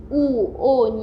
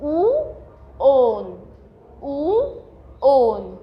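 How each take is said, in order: First: Said in the usual way. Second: "او، اون" as long, separate syllables; teacher modelling "او، اون" slowly, pausing between the parts; pronunciation demo. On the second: Shown as a demonstration. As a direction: sound out "او" then a drawn-out "اون". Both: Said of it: "نحاول ننطقها".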